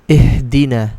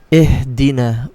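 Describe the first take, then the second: Both takes have the same delivery.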